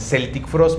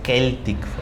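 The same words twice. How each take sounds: First: Celtic begins with a soft S sound. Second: Celtic begins with a hard K sound. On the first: The speaker calls it wrong. "muchos lo dicen Celtic Frost" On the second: The speaker calls it right. "pero es Celtic Frost"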